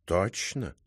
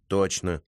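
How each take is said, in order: First: Probing question. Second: Said in the usual way. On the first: Acted. Cat cross-examines the writer.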